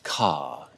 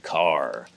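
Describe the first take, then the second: First: The final R sound is dropped. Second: The final R sound is pronounced. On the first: This is how most English accents say it. "they'd say ca instead of car" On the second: This is how most Americans say it. "Americans say car"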